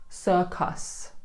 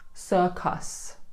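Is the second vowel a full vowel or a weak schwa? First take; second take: full vowel; full vowel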